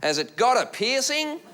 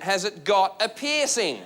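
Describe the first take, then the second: First: Slow Aussie question, rising high at the end; Aussie heckler. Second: Slow, spaced-out Aussie repeat, falling on "piercing"; emphatic repeat. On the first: Aussie three rows back questioning the comic, imitated rising heckle. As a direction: imitate an Australian heckler asking in drawn-out curiosity. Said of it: "who was an Aussie". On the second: Aussie heckler repeating for a puzzled room, slow imitated emphasis. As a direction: spell out "Has it got a piercing" word by word, ending downward. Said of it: "What? He went". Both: Retold or imitated.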